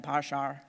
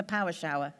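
First: Northern Irish accent. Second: Said in the usual way. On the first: Shown as a demonstration. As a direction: lower Northern Irish accent, "power shower" as "parr sharr". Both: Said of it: "I love saying that in a Northern Irish accent".

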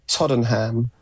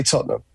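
First: Tottenham with a full "ham" at the end; American-style pronunciation. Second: Tottenham squeezed to "TOT-num"; local British pronunciation. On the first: British podcaster shows the host his American version, Tottenham with a full "ham". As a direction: say Tottenham as "TOD-en-ham", every syllable sounded. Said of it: "I believe you pronounced it". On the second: British fan teaching the host, Tottenham said locally as "TOT-num". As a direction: say Tottenham in two syllables, crisp t, swallowed ending. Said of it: "we say Tottenham". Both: Shown as a demonstration.

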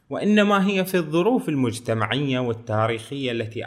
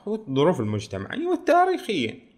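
First: Said in the usual way. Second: High-pitched eager "والتاريخية"; mock eager agreement. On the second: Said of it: "فقال له". (موافقة متحمسة ساخرة بنبرة عالية على "والتاريخية")

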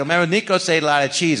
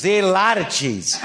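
First: Said in the usual way. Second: Higher, measured deadpan with laughter leaking in; Christopher Walken impression. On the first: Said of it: "I go". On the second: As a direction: echo the line gravely as Walken, barely holding back a laugh. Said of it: "He goes".

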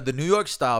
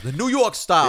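First: Said in the usual way. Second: Higher New York accent on the words. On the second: Real, not acted. Host repeating a pizza style he orders, New York accent. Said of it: "you added an unnecessary accent to it".

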